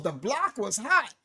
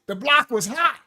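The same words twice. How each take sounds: First: "the block was hot" dropped much softer, with weight on "hot"; low falling tune. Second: "The block was hot" with a lift on "block" and a rising end; rising tune. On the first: Preacher showing that tone changes meaning, soft low take. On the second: Preacher showing that tone changes meaning, rising take. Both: Shown as a demonstration. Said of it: "depending on the tone that I spoke it in".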